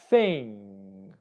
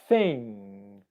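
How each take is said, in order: Both takes have the same delivery.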